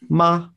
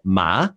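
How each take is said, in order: First: Said with the tone meaning mother. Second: Said with the tone meaning horse. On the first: The word means mother. "Ma means mother" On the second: The word means horse. "ma means uh, horse"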